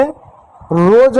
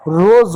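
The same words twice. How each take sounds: First: रोज ending in a hard j, like badge; wrong j sound. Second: रोज ending in a buzzing z, like rose; correct z ending. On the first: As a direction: end रोज with j, the wrong way, drawn out. (रोज के अंत में ज, ग़लत उच्चारण) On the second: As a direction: end रोज on a clear z. (रोज के अंत में ज़, सही उच्चारण) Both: Shown as a demonstration. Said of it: "जैसे रोज नहीं होता है".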